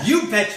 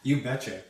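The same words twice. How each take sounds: First: It is said forcefully, with more energy. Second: It is said mildly, with little energy.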